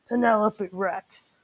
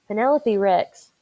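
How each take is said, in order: First: It is read in a put-on daddy T-Rex voice. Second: It is read in the reader's normal voice.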